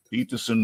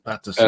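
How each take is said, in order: First: "Peterson" said with a plain e, as in "pet"; misnamed Peterson. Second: "Patterson" with a flat a, as in "pat"; corrected to Patterson. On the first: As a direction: say "Peterson", rhyming the first part with "pet". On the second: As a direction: fix it: "Patterson", first part like "pat". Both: Real, not acted.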